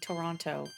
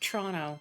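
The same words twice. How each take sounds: First: It is said the way outsiders say it. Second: It is said the way locals say it. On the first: The speaker is not from the city. "versus saying Toronto" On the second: The speaker is from the city. "If you're from there, you say more like Toronto"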